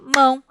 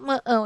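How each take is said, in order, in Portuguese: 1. A palavra é dita em uma sílaba só. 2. A palavra é dividida em duas sílabas. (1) "a gente fala mão, tá? Aqui tem uma sílaba só" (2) "a gente não fala mão"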